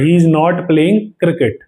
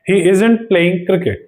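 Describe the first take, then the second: First: The words is not are said fully and separately. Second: The words is not are contracted into isn't. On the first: "इज नॉट आ रहा था पूरा" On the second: "इज नॉट की जगह हम लोग use कर सकते हैं इजंट"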